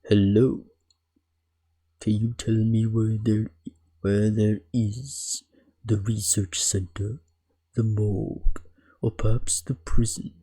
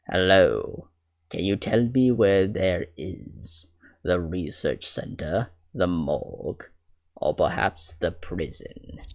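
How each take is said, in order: First: It is said in a Von Zieks impression. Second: It is said in a different, non-Von Zieks voice.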